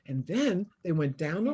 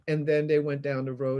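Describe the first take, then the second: First: It is read expressively, with a hesitant pause. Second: It is read flatly, in a monotone. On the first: The speaker calls it right. "hesitant, you stop" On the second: The speaker calls it wrong. "you wouldn't say"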